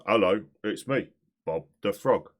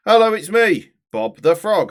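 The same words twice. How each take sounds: First: Low-key cartoon frog greeting; understated frog character hello; Bob the Frog. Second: Loud, high cartoon frog greeting; big, raised character voice; Bob the Frog. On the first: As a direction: give the frog voice at conversational volume. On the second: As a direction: belt out a frog puppet's hello. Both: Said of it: "Bob's your fave voice".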